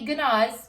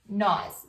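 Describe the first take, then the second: First: The word begins with a hard G sound. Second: The word begins with an N sound. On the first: The speaker calls it wrong. "But we don't say gnaws" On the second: The speaker calls it right. "it's just gnaws. Pretend like the G's not even there"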